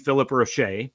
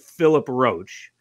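First: The surname is said in a classier way. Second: The surname is said in a plain way. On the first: "He's classing it up a little bit" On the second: "I am going with"

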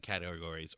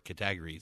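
First: The word is said in the usual way. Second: The word is said imitating another's pronunciation.

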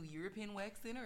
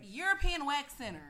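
First: It is said in a deep radio voice. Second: It is said in a natural speaking voice.

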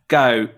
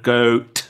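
First: The final T becomes a glottal stop. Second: The final T is made with the tongue. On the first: "stop the sound with your throat in a glottal stop" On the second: "instead of goat with the tongue"

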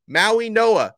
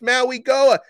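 First: The second part begins with an n sound. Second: The second part begins with a hard g sound. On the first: The speaker calls it right. "I'm pronouncing it right" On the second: The speaker calls it wrong. "you're pronouncing their names wrong. It's Maui Goa"

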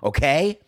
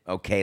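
First: It is said in a bold, assertive way. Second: It is said in a calm, relaxed way. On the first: The speaker is announcing who they are. "I didn't do it like, okay, like here's who I am" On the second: The speaker is pausing to take a breath. "I just did it, okay, let me breathe"

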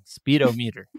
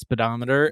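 First: It is said as speed, o, meter. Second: It is said the usual way, spee-dom-eter. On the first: The speaker calls it right. "which speed-o-meter is the correct" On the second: The speaker calls it wrong. "there are two ways to pronounce speedometer, and we picked the wrong one"

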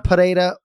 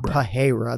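First: The middle R is rolled. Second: The middle consonant is an H sound. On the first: The speaker calls it right. "You roll the R" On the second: The speaker calls it wrong. "It's not Pereira. There's no H whatsoever"

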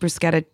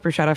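First: The word is said with an Italian-sounding pronunciation. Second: The word is said with a plain English pronunciation. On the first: "bruschetta sounds a little bit more fun" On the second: "I'm going to go with bruschetta for right now"

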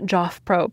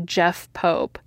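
First: The first name has the vowel of 'cot'. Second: The first name has the vowel of 'bed'. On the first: The speaker calls it wrong. "not Joff Pope, as I pronounced it earlier" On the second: The speaker calls it right. "written by Jeff Pope"

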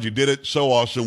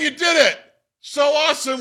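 First: It is read at normal volume. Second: It is yelled loudly.

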